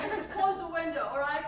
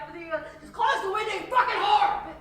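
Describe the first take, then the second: First: Loud, higher, insistent plea; acted exasperation, not yet at full shout; exasperated demand. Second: High, very loud yell building to the insult; acted rage, shouted at full force; furious outburst. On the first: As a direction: demand it with raised voice, still holding back. Acted quarrel over window, first demand. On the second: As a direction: blow up and scream it at them. Acted quarrel over window, blowing up.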